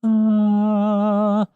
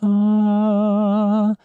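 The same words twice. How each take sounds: No difference in how they are said.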